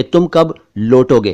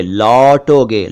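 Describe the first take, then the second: First: लौटोगे said wrongly as lotoge with a closed o; mock wrong pronunciation. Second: लौटोगे slowly, with a wide open au; correct pronunciation. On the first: Teacher mimicking what amuses him, लौटोगे as lotoge. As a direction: imitate the mistake: लौटोगे with o instead of au. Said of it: "बड़ी हंसी आती है जब मैं सुनता हूं". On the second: Shown as a demonstration. Teacher showing the right way, slow open au in लौटोगे. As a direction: draw out लौटोगे, stressing the open औ. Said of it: "उसे बोलना चाहिए लौटोगे".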